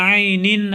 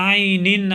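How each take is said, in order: No difference in how they are said.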